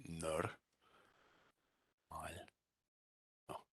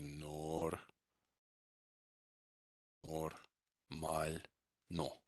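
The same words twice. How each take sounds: First: "Nar-, mal-, no" as separated nar, MAL, nuh; soft, spaced-out "Nar-, mal-, no" with reduced O's; correct vowel reduction. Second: "nor-, normal-no" drawn out slowly, every O rounded; slow learner's "normal-no", NOR-mal-NOH; mispronounced, full O's. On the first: Shown as a demonstration. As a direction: sound out "Nar-, mal-, no" with ah first and uh last. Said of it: "sounds much more correct in Russian to say". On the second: Retold or imitated. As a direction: sound out "normal-no" with unreduced O's. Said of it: "They just pronounce all the O's fully".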